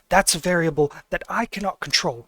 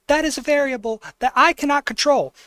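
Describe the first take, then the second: First: It is said in a normal-pitched voice. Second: It is said in a high-pitched voice.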